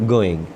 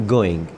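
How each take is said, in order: Both takes have the same delivery.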